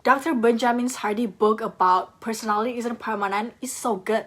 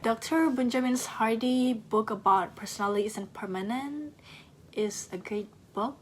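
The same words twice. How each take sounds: First: "Doctor Benjamin Hardy book about personality isn't permanent is so good" ending on a flat, falling tone; confident flat ending, like a full stop; period tone at the end. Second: "Doctor Benjamin Hardy book about personality isn't permanent is a great book" trailing up and unsure at the end; question mark tone. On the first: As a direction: close the sentence with a flat falling finish. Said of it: "And that is with a period". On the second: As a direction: lift the end into a question, softer. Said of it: "doing the question mark tone at the end".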